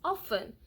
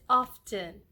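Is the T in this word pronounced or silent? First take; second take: silent; pronounced. First: The T sound is silent. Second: The T sound is pronounced. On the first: The speaker calls it right. "the T is silent" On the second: The speaker calls it wrong. "Some people call it often, which is not so bad"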